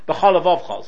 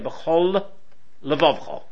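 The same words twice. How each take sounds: First: The two L sounds merge into one. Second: Both L sounds are pronounced separately. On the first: The speaker calls it wrong. "So it sounds like only one lamed" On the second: The speaker calls it right. "No, you've got to say"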